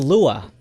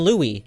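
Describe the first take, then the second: First: The first part sounds like 'Lua'. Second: The first part sounds like 'Lewis'. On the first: The speaker calls it right. "It's actually Lua" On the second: The speaker calls it wrong. "locals don't call it Louis"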